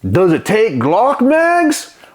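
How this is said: It is said in a put-on voice.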